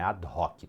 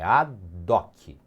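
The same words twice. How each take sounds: First: The h is pronounced and the words are separate. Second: The h is silent and the words run together. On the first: The speaker calls it wrong. "Não fala o H no latim, não é ad hoc" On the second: The speaker calls it right. "É ad hoc. Fala junto mesmo"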